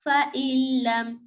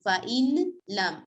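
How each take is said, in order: First: The n sound is merged into a doubled l. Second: The n sound is clearly pronounced before l. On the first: The speaker calls it right. "हमजा को लाम के साथ मिलाना है" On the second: The speaker calls it wrong. "यहाँ पर ऐसे नहीं पढ़ना"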